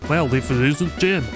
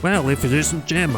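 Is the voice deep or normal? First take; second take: deep; normal. First: The voice is deeper, with a put-on accent. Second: The voice is at its normal pitch.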